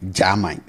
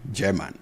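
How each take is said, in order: First: Put-on German said as jah-mine in a Twi accent; Kumasi Twi accent. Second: Said in the usual way. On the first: Teacher imitating how Kumasi speakers say German. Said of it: "being pronounced as German". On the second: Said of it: "You hear this being pronounced".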